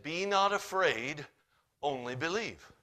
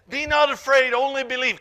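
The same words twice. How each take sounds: First: Said in the usual way. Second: Much higher and louder, ringing out; booming proclamation. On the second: Shown as a demonstration. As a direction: proclaim it to the back row. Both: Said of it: "And Jesus said".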